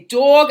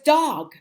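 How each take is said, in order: First: It is said with a New Jersey accent. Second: It is said with a standard accent. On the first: The speaker calls it wrong. "I have a Jersey accent. I say dog" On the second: The speaker calls it right. "So it's dog"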